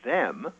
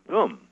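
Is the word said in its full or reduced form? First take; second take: full; reduced. First: The word is said in its full form. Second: The word is said in its weak, reduced form. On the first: "not them" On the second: "That's the way we say it most of the time"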